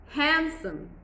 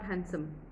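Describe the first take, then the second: First: The stress is on the first syllable. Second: The stress is on the second syllable. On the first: The speaker calls it right. "Your focus is the first part of the syllable" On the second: The speaker calls it wrong. "It's not"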